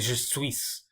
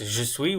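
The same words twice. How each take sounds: First: The final S is pronounced. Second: The final S is silent. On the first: The speaker calls it wrong. "So I didn't say je suis" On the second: The speaker calls it right. "I didn't really pronounce the S at the end"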